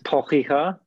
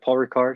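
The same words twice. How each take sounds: First: It is said with a French accent. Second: It is said with a plain English accent.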